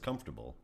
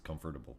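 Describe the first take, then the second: First: The ending is reduced, not a full 'able'. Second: The ending is a full, separate 'able'. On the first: This is how most people say it. The speaker calls it right. "everybody else says comfortable" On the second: This comes from reading the word, not hearing it. The speaker calls it wrong. "it's comfortable for me"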